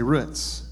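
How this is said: The word is said with an East Texas pronunciation. "If you're from East Texas, ... you say roots"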